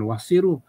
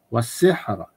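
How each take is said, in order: First: The word ends with an added final vowel. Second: The word ends on a stopped final consonant. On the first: The speaker calls it wrong. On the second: The speaker calls it right.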